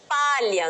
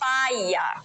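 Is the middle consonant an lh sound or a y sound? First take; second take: lh sound; y sound. First: The middle consonant is a palatal lh sound. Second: The middle consonant is a y sound.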